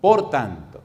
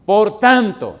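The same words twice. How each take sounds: First: Said in the usual way. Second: "Por tanto" thundered out, much louder and higher, falling hard on "tanto"; booming emphasis. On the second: Shown as a demonstration. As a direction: proclaim "Por tanto" like a herald, full voice. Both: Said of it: "me gusta cómo lo dice".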